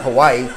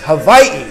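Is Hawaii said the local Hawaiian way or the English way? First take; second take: English; Hawaiian. First: The name has a common English pronunciation. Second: The name has a local Hawaiian pronunciation. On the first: The speaker calls it wrong. "not Hawaii" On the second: The speaker calls it right. "If I'm going to be this right, it's Hawaii"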